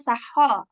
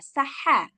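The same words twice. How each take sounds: First: The sound is somewhat rounded and full. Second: The sound is relaxed and flat, not raised. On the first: The speaker calls it wrong. "agak bulat nggak boleh" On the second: The speaker calls it right. "yang istifal ha biasa"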